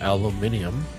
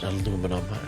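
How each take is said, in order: First: It is said the British way, with five syllables. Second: It is said the American way, with four syllables. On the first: "Or for those across the pond" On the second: "It's aluminum"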